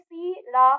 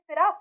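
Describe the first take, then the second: First: The first vowel is drawn out long. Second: The first vowel is short and quick. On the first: The speaker calls it wrong. "आप इसको खींच के बोलेंगे तो यानी ये तो गलत हो गया" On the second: The speaker calls it right. "इसे हम बोल रहे हैं सिरा"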